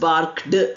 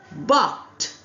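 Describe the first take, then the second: First: The ending is pronounced with a d sound. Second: The ending is pronounced with a t sound. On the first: The speaker calls it wrong. "we did not pronounce ed as barked" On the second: The speaker calls it right. "didn't say d, we said t"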